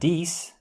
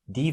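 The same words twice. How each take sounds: First: The final consonant is pronounced. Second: The final consonant is silent.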